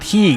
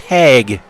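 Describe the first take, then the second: First: The name is said with an 'ee' vowel. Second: The name is said with an 'a' vowel. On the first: The speaker calls it wrong. "it's not Heeg" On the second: The speaker calls it right. "it's Hag"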